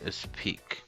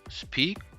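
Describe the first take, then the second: First: The word starts with an added e vowel. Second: The word starts directly with the sp sound. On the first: The speaker calls it wrong. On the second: The speaker calls it right.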